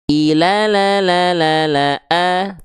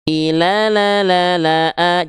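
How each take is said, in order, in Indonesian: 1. Vokal panjang ditahan selama lima harakat. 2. Vokal panjang ditahan selama empat harakat. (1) "Tuh, ini lima" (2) "empat harokat itu seperti kadar melafalkan empat kali la"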